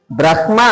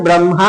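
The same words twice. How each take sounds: First: First బ్రహ్మ as "brah-ma", h before m; written form. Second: Second బ్రహ్మ as "bram-ha", m before h; spoken form. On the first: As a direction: sound out బ్రహ్మ as it is spelt, brah-ma. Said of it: "అని రాసి". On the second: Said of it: "అని పలుకుతాము". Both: Shown as a demonstration.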